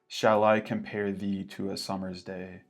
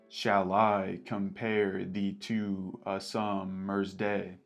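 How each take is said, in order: First: The stress follows ordinary speech with no beat. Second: Every second syllable gets a heavy, regular beat. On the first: "Not in iambic pentameter" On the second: "it would sound like"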